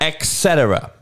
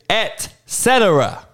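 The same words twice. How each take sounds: First: The first word begins with an 'ex' sound. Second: The first word begins with an 'et' sound. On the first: The speaker calls it wrong. "It's not ex" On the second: The speaker calls it right. "It is et cetera. It's actually two words"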